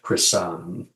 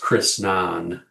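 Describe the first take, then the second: First: No n sound comes in the middle of the name. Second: An n sound comes in the middle of the name. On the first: The speaker calls it wrong. "not Chrisan" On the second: The speaker calls it right. "it is Chrisnan"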